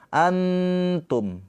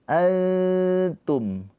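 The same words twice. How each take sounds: First: The n is clear, tongue touching. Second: The n is hidden, tongue not touching. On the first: The speaker calls it wrong. "Bukan antum" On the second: The speaker calls it right. "Kalau samar dia nggak ditempelkan, hanya mendekat. ... Samar"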